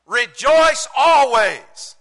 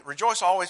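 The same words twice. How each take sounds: First: Slow, high, very loud preaching; emphatic proclamation. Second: Said in the usual way. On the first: Real, not acted. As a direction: proclaim it to the whole congregation. Preacher proclaims verse as upgrade.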